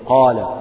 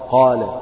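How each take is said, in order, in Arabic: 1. الحركة الطويلة 'aa' مفتوحة. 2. الحركة الطويلة 'aa' مفتوحة.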